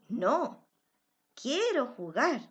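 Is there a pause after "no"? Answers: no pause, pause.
pause. There is a pause right after the word no. The person does want to play. "hay una coma que detiene la expresión"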